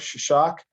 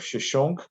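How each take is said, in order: First: The name ends with an 'ak' sound. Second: The name ends with an 'unk' sound. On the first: This is the form used in the Bible. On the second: This is how the name is said in Egyptian.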